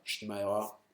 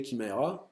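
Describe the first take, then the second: First: Shimaera with a soft SH start; prononciation en « chi ». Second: Kimaera with a hard K start; prononciation en « ki ». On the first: (Shimaera prononcé avec un « ch » doux) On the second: (Kimaera prononcé avec un K dur) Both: Shown as a demonstration. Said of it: "je sais même pas comment ça se prononce".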